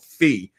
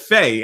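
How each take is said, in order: First: The vowel sounds like 'ee' in 'see'. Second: The vowel sounds like 'ay' in 'day'. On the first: The speaker calls it right. "it's called Fee" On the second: The speaker calls it wrong. "I've been calling it Faye"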